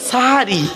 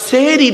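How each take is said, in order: First: The first vowel sounds like a. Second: The first vowel sounds like e. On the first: It refers to the pre-dawn meal. The speaker calls it right. "ওটা সাহারি" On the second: It refers to doing magic. The speaker calls it wrong. "সেহেরি নয়"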